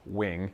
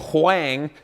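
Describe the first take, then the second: First: The word is given its ordinary, plain pronunciation. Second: The word is given an unusual, exaggerated pronunciation. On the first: The speaker calls it wrong. "if you want to pronounce it like a loser" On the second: The speaker calls it right. "as it's pronounced"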